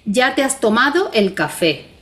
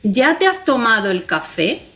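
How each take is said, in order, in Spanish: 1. Se dice como una afirmación plana. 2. Se dice con una entonación interrogativa. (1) "si yo digo enunciativamente" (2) "si yo le pongo los signos de interrogación, marco una modalidad totalmente distinta"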